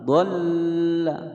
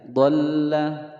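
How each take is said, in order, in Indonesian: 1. Huruf l ganda dibaca terlalu lama. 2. Huruf l ganda ditekan sebentar. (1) "salah ya" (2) "ditekan saja"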